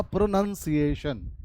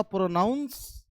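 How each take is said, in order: First: प्रोनंसिएशन slowly, with "nun" inside; contrasted noun pronunciation. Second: प्रोनाउंस drawn out with "noun" inside; contrasted verb pronunciation. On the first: Teacher contrasting noun with verb, slow प्रोनंसिएशन with "nun". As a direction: say प्रोनंसिएशन as pro-nun-si-ay-shun. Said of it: "ये होगा". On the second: Teacher contrasting verb with noun, slow प्रोनाउंस with an "ow" vowel. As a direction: stretch प्रोनाउंस as pro-nounce. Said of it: "तो ये होगा". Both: Shown as a demonstration.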